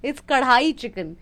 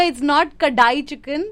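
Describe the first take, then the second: First: "कढ़ाई" with a retroflex flap ढ़, tongue curled back; correct Hindi pronunciation. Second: "कढ़ाई" said as the American friend says it, with a plain d sound; mock the friend's "कढ़ाई" with a plain d; wrong version quoted. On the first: Teaching the American friend, she says "कढ़ाई" correctly with a retroflex flap. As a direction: say "कढ़ाई" the proper Hindi way with the flapped ढ़. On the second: Correcting the friend, she mimics his "कढ़ाई" with a plain d. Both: Shown as a demonstration.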